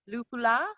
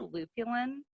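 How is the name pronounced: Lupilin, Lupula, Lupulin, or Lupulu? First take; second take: Lupula; Lupulin. First: The name is said as Lupula, ending in -la. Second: The name is said as Lupulin, ending in -lin. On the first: The speaker calls it wrong. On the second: The speaker calls it right.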